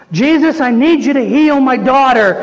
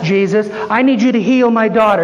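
First: Higher, more urgent repeated plea; insistent plea. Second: Said in the usual way. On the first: Acted. Ignored woman begs Jesus to heal her daughter, insistent pleading. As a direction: press harder after being ignored. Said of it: "He ignores her". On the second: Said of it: "We're like the Syrophoenician woman".

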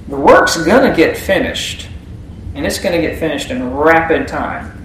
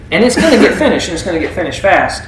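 First: Said in the usual way. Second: Fast emphatic. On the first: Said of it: "first take, slower". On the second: Shown as a demonstration. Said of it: "repeated phrase, faster and emphatic".

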